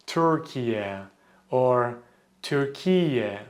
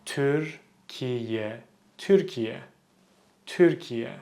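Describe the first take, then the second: First: Türkiye said English style as Terkiya; anglicized Türkiye with er sound; wrong pronunciation. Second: Türkiye with a rounded ü, short; correct pronunciation. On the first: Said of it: "I hear a lot of people pronounce". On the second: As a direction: say Türkiye with a Turkish ü. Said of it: "The correct pronunciation is". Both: Shown as a demonstration.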